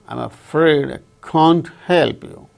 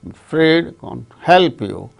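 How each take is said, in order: First: Can't is stressed along with afraid and help. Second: Only afraid and help are stressed. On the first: "the speaker wanted to stress can't also" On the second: "then afraid and help, only two words are stressed"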